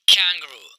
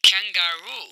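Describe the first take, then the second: First: Kangaroo squeezed into "kang-groo"; wrong pronunciation. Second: Kangaroo in three full syllables, "kan-ga-roo"; correct pronunciation. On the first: Teacher mimics many students, kangaroo as louder "kang-groo". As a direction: drop the middle vowel of kangaroo. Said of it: "This is a wrong pronunciation". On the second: Teacher models it for students, Kangaroo as "kan-ga-roo". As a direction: sound the middle "ga" of Kangaroo, lengthen the end. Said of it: "आप कैसे बोलेंगे?". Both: Shown as a demonstration.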